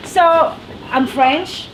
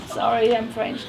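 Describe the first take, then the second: First: Said in the usual way. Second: Softer, sheepish sorry I'm French; mock-apologetic confession. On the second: Shown as a demonstration. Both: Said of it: "I say that like".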